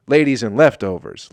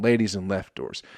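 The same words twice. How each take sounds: First: "Leftovers" in full, not run into "doors"; clearer pronunciation. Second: Said in the usual way. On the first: Shown as a demonstration. Comic correcting his album title, clearer pronunciation.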